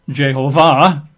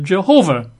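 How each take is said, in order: First: The stress is on the final syllable. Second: The stress is on the second syllable. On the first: "technically the emphasis would be on the final syllable" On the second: "emphasizing, the second syllable"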